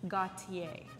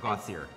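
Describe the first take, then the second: First: The name is pronounced with French sounds. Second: The name is pronounced with English sounds.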